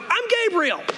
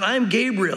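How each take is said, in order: First: It sounds impatient and exasperated. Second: It sounds regal, serious and solemn. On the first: The speaker is annoyed that he is doubted. "I read this and I go" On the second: The speaker asserts his exalted standing. "he's more regally probably said"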